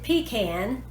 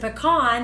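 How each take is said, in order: First: The first syllable sounds like 'pee'. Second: The first syllable is not a full 'pee'. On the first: "then spell it P E E C A N" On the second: "then spell it P E C A N"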